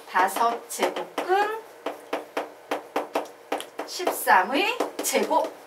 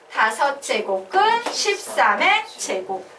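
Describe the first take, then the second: First: Very slow "다섯 제곱근십삼의 제곱" with long pauses; demonstrated slow reading. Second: Slow, full-voiced "다섯 제곱근십삼의 제곱"; choral drill reading. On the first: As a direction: spell out "다섯 제곱근십삼의 제곱", halting before "십삼의". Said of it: "요런 식으로 읽는 거예요". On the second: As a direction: chant "다섯 제곱근십삼의 제곱" in even chunks. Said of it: "얘 뭐라고 읽는다?". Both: Shown as a demonstration.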